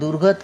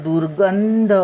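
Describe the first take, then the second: First: It is said without a nasal sound before dh. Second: It is said with a nasal sound before dh. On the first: The speaker calls it wrong. "दुर्गध काय असतं?" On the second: The speaker calls it right. "रपराच्या आतमध्ये घालायचा अनुस्वार"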